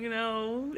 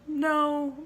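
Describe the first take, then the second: First: Said in the usual way. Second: Sharp, high, loud no; emphatic refusal; firm no. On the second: Retold or imitated. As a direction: shut him down flat out. Refusing boy's number request.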